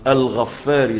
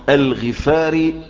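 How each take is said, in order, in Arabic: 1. صوت "f" مضعّف ويُمَدّ أطول. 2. صوت "f" قصير ومفرد. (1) "وليست الغفاري ... هو كتبها الغفاري بالتشديد" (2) "وتنطق الغفاري"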